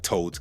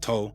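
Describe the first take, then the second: First: The final d sound is clearly pronounced. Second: The final d sound is left off. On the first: "A word like told" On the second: "final consonant dropping... can become toll"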